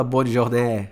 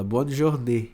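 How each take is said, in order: First: "bonne journée" with a drawn-out open E at the end; wrong open E. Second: "bonne journée" ending on a closed "ay" sound; correct closed E. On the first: Teacher showing what you don't say, wrong open E. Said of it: "você não fala". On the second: Teacher correcting the accent for a student, correct closed E. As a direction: finish "journée" with a normal closed E. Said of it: "você pronuncia ele como um E normal". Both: Shown as a demonstration.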